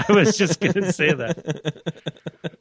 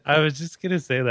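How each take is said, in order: First: Laughing. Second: Said in the usual way. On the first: Real, not acted.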